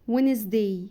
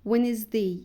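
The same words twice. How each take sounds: The two takes are said the same way.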